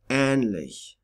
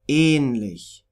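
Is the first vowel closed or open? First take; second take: open; closed. First: The first vowel is open, like 'a' in band. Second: The first vowel is a closed long e. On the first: "similar to A in band" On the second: "pronounce the long Ä like a long E"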